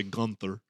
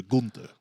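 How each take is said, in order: First: "Gunther" the American way, GUN-ther; "Gunther" Americanized to GUN-ther; American pronunciation. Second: "Gunther" the German way, GOON-ter; "Gunther" as said in Austria, GOON-ter; German pronunciation. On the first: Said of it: "Americans say Gunther". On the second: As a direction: say "Gunther" with an oo and a hard t. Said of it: "That's how you say it in Germany and Austria". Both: Shown as a demonstration.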